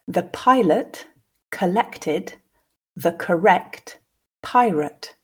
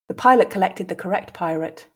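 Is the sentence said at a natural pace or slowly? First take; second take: slowly; natural pace. First: The sentence is said slowly, with pauses. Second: The sentence is said at a natural pace. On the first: "I'll read the first time slowly, pausing for you to grasp the meaning" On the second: "then repeat again twice at a more natural pace"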